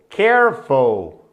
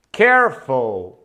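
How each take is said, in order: Both takes have the same delivery.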